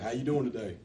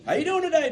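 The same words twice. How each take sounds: First: It is said flatly, like after a funeral. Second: It is said brightly with the voice raised.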